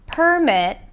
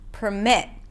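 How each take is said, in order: First: The stress is on the first syllable. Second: The stress is on the second syllable. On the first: It is a noun: a document of permission. "a permit" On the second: It is a verb: to allow. "to permit"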